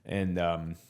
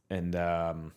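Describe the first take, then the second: No difference in how they are said.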